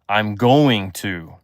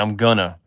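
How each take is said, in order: First: The phrase is said in full as going to. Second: The phrase is reduced to gonna. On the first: "I don't say I'm going to" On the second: "I always say I'm gonna"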